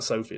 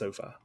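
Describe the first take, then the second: First: The name ends with a 'fee' sound. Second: The name ends with a 'fye' sound. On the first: The speaker calls it wrong. "it's not Sophie" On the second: The speaker calls it right. "It's SoFi"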